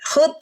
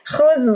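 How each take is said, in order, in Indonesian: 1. Konsonan akhirnya adalah bunyi hentian keras seperti t. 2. Konsonan akhirnya adalah bunyi dh yang lembut. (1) "jangan dibunyikan hud" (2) "huruf zal rohwah, jadi harus khudz"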